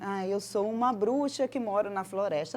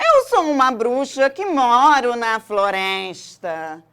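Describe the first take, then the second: First: It is said in a plain, normal voice. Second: It is said in a put-on witch voice.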